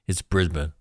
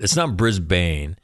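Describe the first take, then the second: First: Brisbane said BRIZ-bun, short unstressed end; the local way, Brisbane clipped to bun; correct pronunciation. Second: Brisbane said as BRIZ-bane, rhyming with lane; the mistaken way, Brisbane with a long bane; wrong pronunciation. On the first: Host correcting viewers on saying Brisbane. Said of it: "That's how you say that". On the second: Host mocking the wrong way to say Brisbane. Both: Shown as a demonstration.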